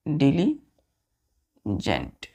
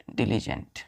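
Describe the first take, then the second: First: डिलीजेंट spoken very slowly, each syllable stretched; slow pronunciation. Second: Said in the usual way. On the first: Shown as a demonstration. Teacher to students, new word: very slow and drawn out. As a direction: lay out डिलीजेंट slowly for the class. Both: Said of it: "next word है".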